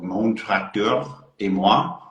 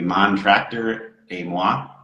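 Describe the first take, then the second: First: The name is said with a French accent. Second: The name is said with an American accent.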